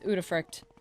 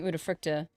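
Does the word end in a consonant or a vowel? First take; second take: consonant; vowel. First: The word ends on a consonant sound. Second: The word ends on an extra vowel sound. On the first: This is how the character in the game says it. The speaker calls it right. "the chick pronounced it as Udafruct" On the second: This is how the speaker had been saying it. The speaker calls it wrong. "I was saying Udafructa"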